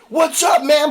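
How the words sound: It is yelled boldly and loudly.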